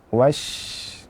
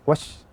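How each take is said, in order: First: The sh sound flows on continuously. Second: The sh sound is cut short. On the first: The speaker calls it right. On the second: The speaker calls it wrong.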